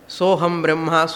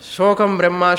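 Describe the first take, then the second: First: The first word is said with an h sound. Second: The first word is said with a k sound. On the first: The speaker calls it right. "She herself telling" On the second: The speaker calls it wrong. "Soham Brahma ni kuda chalala, ... she said"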